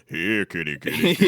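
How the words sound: It is said in a deep voice.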